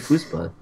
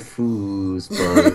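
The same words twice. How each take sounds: First: The word is said short and plain. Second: The word is drawn out slowly. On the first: The speaker calls it right. "but if you just say foosball" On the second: The speaker calls it wrong. "Guess you drag out the foosball"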